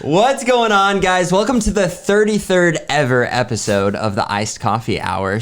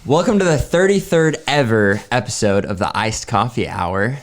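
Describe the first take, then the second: First: It is said louder with more energy. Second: It is said with ordinary, lower energy.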